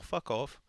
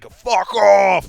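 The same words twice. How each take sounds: First: It is said lightly, without force. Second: It is said forcefully, with aggression. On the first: There is no real danger or urgency. The speaker calls it wrong. "If you just say it like" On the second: Something is at stake and danger is present. The speaker calls it right. "but then if you say"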